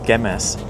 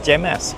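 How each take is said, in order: First: It begins with a hard G sound. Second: It begins with a soft G sound. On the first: The speaker calls it right. "must be a gut sound in this word ... as I now pronounce it" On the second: The speaker calls it wrong. "I've been saying Gemas"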